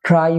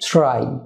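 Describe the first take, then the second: First: It begins with a plain t sound. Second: It begins with a ch-like sound. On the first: The speaker calls it wrong. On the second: The speaker calls it right.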